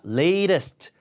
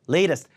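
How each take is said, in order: First: The middle t is a hard t sound. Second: The middle t is a soft r-like flap. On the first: The speaker calls it wrong. "latest가 아니라" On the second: The speaker calls it right. "T 발음이 리을 발음처럼 발음되니까"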